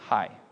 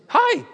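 First: It is said in a plain, neutral way. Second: It is said in an excited, lively way.

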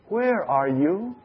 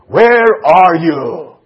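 First: It is said in a warm, loving tone. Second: It is said in a harsh, stern tone. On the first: The caller lovingly seeks the one hiding. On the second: The caller is angry at the one hiding.

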